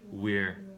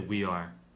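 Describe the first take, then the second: First: It is said as one short contracted word. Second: It is said as two full separate words. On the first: The speaker calls it right. "actually we say your, we're" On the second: The speaker calls it wrong. "We don't say we are"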